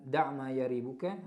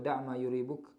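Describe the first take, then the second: First: The verb begins with a 'ya' sound. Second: The verb begins with a 'yu' sound. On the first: "dengan memfathahkan ya" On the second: "dengan mendhammahkannya"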